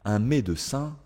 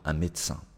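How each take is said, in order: First: The middle e sound is pronounced. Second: The middle e sound is dropped.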